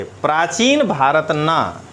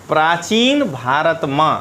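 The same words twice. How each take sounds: First: प्राचीन भारत ना said slowly, falling at the end; slow, deliberate प्राचीन भारत ना; broken into parts. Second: प्राचीन भारत said slowly, each word set apart; broken into parts. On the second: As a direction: break प्राचीन भारत into separate words. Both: Shown as a demonstration. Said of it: "पहले ऐसे पढ़ना है तोड़ के".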